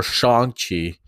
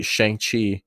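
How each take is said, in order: First: "Shang-Chi" said slowly as "Shong-Chi"; alternative pronunciation. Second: "Shang-Chi" with the vowel of "hang"; first pronunciation. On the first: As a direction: say "Shang-Chi" with an open AH, drawn out. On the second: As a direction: say "Shang-Chi" with a flat A as in "bang". First of two pronunciations offered. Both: Real, not acted.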